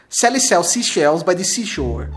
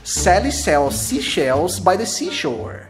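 First: It is said fast. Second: It is said slowly.

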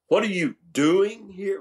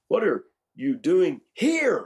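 First: The stress falls on the word doing. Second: The stress falls on the word here. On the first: The question asks what activity is going on. "Well, not much, Lord, just feeling myself" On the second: Of all places, this is the one chosen. "of all places?"

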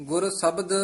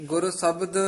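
The two takes are said the same way.

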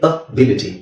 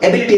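First: The first vowel is a short 'uh' sound. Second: The first vowel is an 'eh' sound. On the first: The speaker calls it right. "Actually ಅದೇನು ಅಬಿಲಿಟಿ" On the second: The speaker calls it wrong. "ನಾವು ಎಬಿಲಿಟಿ ಅಂತ ಹೇಳ್ತೀವಿ"

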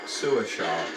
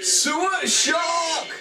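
First: It is said flatly, without energy. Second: It is shouted dramatically, with big energy.

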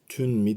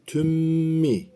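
First: A clear n is heard before the m. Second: The n merges into a doubled m. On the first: The speaker calls it wrong. "Tün mi demiyoruz. Tün mi değil" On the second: The speaker calls it right. "Tüm mi şeklinde yapıyoruz"

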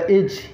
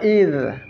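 First: The word ends in a j sound. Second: The word ends in a dh sound. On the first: The speaker calls it wrong. "dibaca ij" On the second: The speaker calls it right. "Ini huruf dha"

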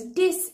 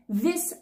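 First: The word begins with a d sound. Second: The word begins with a th sound. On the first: "what many learners do is they say these as dis" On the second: "say it more like this"

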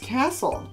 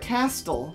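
First: The T sound is left out entirely. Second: The T sound is pronounced in the middle. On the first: The speaker calls it right. "But it's castle. There's a silent" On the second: The speaker calls it wrong. "looks like castle"

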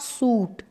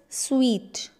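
First: The word sounds like 'suit'. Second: The word sounds like 'sweet'. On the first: The speaker calls it wrong. "not suit" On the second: The speaker calls it right. "It's sweet"

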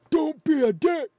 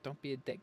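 First: It is shouted loudly, like the grandfather. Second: It is said at a normal volume.

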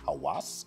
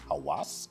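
First: The middle consonant is a W sound. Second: The middle consonant is a W sound.

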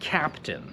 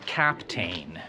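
First: The last syllable is short and reduced. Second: The last syllable rhymes with 'main'. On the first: The speaker calls it right. "To słowo oczywiście się wymawia captain" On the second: The speaker calls it wrong. "Prawdopodobnie byś nie powiedział captain"

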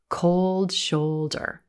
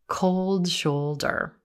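No difference in how they are said.

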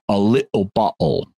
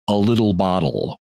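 First: The t sounds are replaced by glottal stops. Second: The t sounds are pronounced clearly.

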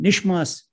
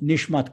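First: The word ends with an s sound. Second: The word ends with a t sound.

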